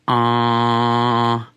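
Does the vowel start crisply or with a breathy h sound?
crisply. The vowel starts crisply, with no breath before it. The speaker calls it right. "start the ah sound with a slight staccato, like this"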